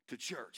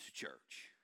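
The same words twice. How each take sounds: First: Said in the usual way. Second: Whispered punchline after a pause; hushed reveal. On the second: Real, not acted. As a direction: drop to a near whisper to reveal it. Answer to own question, hushed.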